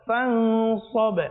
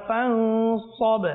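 Both takes have the same delivery.

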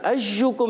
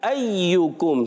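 First: The y sound is short and single. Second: The y sound is doubled and held. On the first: The speaker calls it wrong. "یہ غلط ہے. یہ اس طرح نہیں پڑھنا. ایوکم نہیں" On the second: The speaker calls it right. "یا مشدد ہو گیا ایوکم"

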